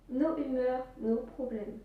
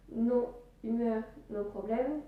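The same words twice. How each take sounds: First: Strong French accent. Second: Said in the usual way. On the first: Real, not acted. Vlogger jokes about his own accent, thick French accent. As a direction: lay on a thick French accent on nos humeurs, nos problèmes. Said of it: "Notez-moi ce bel accent français". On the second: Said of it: "qu'est-ce que je voulais dire en disant".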